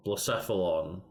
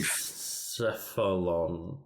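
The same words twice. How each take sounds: First: Said in the usual way. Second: "Blacephalon" drawn out slowly and low; sounding out. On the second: Real, not acted. Working out an unpronounceable Pokemon name, sounding out "Blacephalon" slowly.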